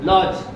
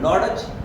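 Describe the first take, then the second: First: No d sound is heard before the j. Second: A d sound is heard before the j. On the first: The speaker calls it right. "डी silent" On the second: The speaker calls it wrong. "लॉडज wrong"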